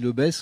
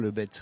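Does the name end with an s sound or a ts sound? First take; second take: s; ts. First: The name ends with a plain s sound. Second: The name ends with a ts sound. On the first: This is how local people say it. The speaker calls it right. "on dit le BESS" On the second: This is how outsiders say it. The speaker calls it wrong. "on ne dit pas le BETZ"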